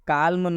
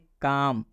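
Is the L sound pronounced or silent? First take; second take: pronounced; silent. First: The L sound is pronounced before the M. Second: The L is silent, with no L sound. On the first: The speaker calls it wrong. "काल्म नहीं पढ़ेंगे" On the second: The speaker calls it right. "हम इसको पढ़ेंगे काम"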